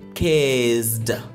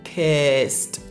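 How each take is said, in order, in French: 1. La terminaison ne se prononce pas avec un son T. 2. La terminaison se prononce avec un son T. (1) "et non kissed" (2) "kissed et non kissed"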